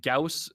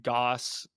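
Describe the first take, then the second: First: Gauss rhyming with "house"; vowel like "ow". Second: Goss rhyming with "boss"; vowel like "aw". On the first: Naming the physicist, Gauss said with an "ow". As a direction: say Gauss as "GOWSS". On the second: Naming the toilet inventor, Goss said with an "aw". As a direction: say Goss as "GAWSS". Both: Shown as a demonstration. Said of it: "based on the way you pronounce it".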